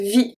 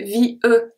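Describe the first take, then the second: First: Vie as one syllable, vee; correct silent E. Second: V E as vee-uh, final E sounded; overpronounced E in V E; wrong pronunciation of vie. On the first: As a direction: say vie ending on the ee vowel, no uh after it. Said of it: "I say vie". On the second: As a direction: say V E as two syllables with a separate uh at the end. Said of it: "I don't say V E". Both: Shown as a demonstration.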